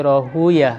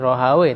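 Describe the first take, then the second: First: The name ends with an 'uyah' sound. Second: The name ends with a 'wayh' sound. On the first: This is how hadith scholars say it. "para ahli hadis mereka tidak suka nyebut Rohawe tapi Rohuyah" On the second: This is how language scholars say it. "kalau para ahli bahasa nyebut Rohawe"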